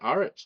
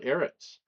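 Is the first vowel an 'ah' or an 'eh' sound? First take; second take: ah; eh. First: The first vowel is an open 'ah' sound. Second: The first vowel is a mid 'eh' sound. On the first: "with an ah instead of an eh"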